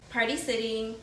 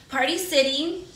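First: Said in the usual way. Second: Louder, bouncy brand name; excited. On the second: Shown as a demonstration. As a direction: sell the name like a jingle.

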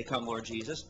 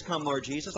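First: The Spirit's call, hushed and low; soft low plea. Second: Said in the usual way. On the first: Acted. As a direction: lower and softer, a hushed call. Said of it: "That's when the Spirit will say". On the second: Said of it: "But the bride says".

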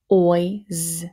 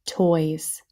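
First: "Toys" split as t, oy, z; sounded out. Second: Said in the usual way. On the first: Shown as a demonstration. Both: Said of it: "Here we go, next row".

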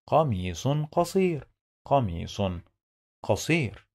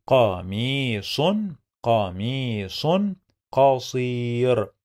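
First: Connected reading. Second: "قميص قصير" with long-held vowels, word by word. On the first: Teacher putting the phrase together, quick and connected. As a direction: say "قميص قصير" briskly as one phrase. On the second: Teacher sounds out phrase slowly. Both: Shown as a demonstration.

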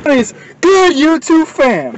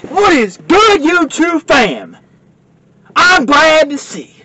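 First: High, slow channel greeting; vlog intro. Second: Drawn-out high intro greeting; vlog intro. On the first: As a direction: call out to the fans like a host. Second take of the intro. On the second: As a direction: sing out the channel greeting slowly. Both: Acted.

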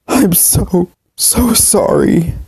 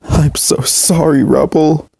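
First: Much higher, very slow breaking sob. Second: Tearful apology, voice high and slow; sobbing. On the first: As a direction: let the voice crack apart on sorry. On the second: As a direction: sob it out, pleading. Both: Acted. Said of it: "continued to sob".

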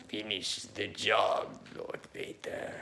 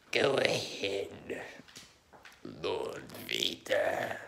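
First: Slow, breathy Lord Vader; the Emperor. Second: The Emperor. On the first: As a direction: drop the voice to a soft, slow Vader command. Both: Retold or imitated. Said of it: "Okay, the Emperor".

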